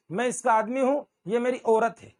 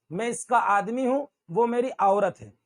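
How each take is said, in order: First: औरत as "orat"; wrong single vowel. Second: औरत as "a-urat"; correct double vowel. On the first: Retold or imitated. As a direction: begin औरत on a pure "o". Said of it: "ये औरत नहीं होता". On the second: Shown as a demonstration. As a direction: open औरत on "a", glide into "u". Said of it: "not औरत".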